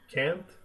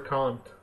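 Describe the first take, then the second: First: Can't is said in an American accent. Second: Can't is said in a British accent. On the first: "Like you guys say can't" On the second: "but I prefer can't. Like the British people"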